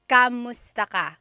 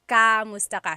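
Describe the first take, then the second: Both takes have the same delivery.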